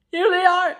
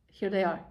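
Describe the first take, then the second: First: Higher and louder, thrilled; bursting with joy at the reveal; excited reveal. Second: Said in the usual way. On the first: Real, not acted. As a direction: announce it with delight.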